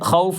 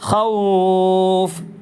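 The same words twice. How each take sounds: First: The vowel is held for a normal length. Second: The vowel is held longer than normal. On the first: The speaker calls it wrong. "ഖൗഫ് എന്ന് പറഞ്ഞാൽ പോരാ" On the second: The speaker calls it right. "ഒന്ന് സാധാരണ നീട്ടുന്നതിലേറെ ഒന്ന് നീട്ടുക"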